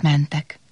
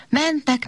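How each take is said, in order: First: Said in the usual way. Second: Singsong high. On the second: A narrator's reading. Repeated travel refrain.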